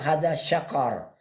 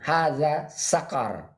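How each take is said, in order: First: The last word begins with an sh sound. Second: The last word begins with an s sound. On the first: "pakai sya" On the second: "itu kan pakai sin"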